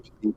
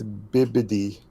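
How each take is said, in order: First: The middle consonants sound like p. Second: The middle consonants sound like b. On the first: The speaker calls it wrong. "I've been saying it wrong this entire time" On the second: The speaker calls it right. "it's bees, not peas"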